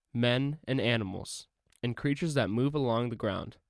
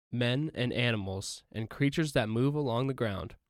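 Both takes have the same delivery.

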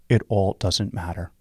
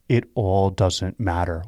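First: The phrase is said at a normal pace. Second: The phrase is said slowly and deliberately.

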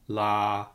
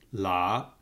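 First: The pitch stays mid and level. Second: The pitch starts low and rises. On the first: "a mid flat tone" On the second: "a low rising tone"

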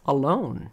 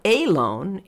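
First: The stress is on the second syllable. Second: The stress is on the first syllable. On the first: The speaker calls it right. "The lone is the long syllable" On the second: The speaker calls it wrong. "It's not alone"

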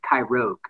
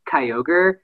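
First: The R sound comes before the G sound. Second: The R sound comes after the G sound. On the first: The speaker calls it wrong. "we just always said it as Kyrogue" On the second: The speaker calls it right. "one of the examples is Kyogre"

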